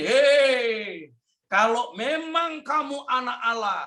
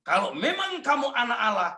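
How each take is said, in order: First: High, sneering tempter's voice; mock him like the devil; taunting devil. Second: High, sneering cut-off tempter line; devil's taunt. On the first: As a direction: devil taunting Jesus in the desert. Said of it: "iblis itu ganggunya begini". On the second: Acted. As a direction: say it like Satan mocking. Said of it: "begitu setan ngomong".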